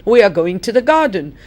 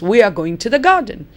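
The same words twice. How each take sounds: First: The words run together and "are" is reduced. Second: The same.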